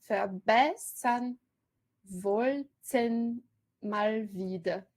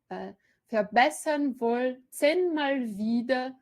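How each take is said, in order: First: Verbessern wollten mal wieder, syllables spaced out, very slow; scanned metre. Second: Verbessern wollten mal wieder read evenly, stress on wollten; alternate scansion. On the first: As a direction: lecturer scanning the verse for students, slow and stressed. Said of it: "fraca, forte". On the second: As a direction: lecturer tries a second stress reading, slow. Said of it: "Fica estranho". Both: Shown as a demonstration.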